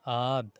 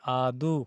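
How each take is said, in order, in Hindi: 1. शब्द के अंत में कोई अंतिम स्वर नहीं है। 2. शब्द के अंत में अंतिम 'u' स्वर है। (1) "दैट मालतो में कहते हैं आद" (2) "या फिर कहीं कहीं आदू"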